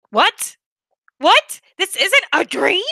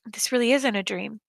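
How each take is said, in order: First: Much higher, louder disbelieving cries; shocked realization. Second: Said in the usual way. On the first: Acted. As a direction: jolt awake in shock.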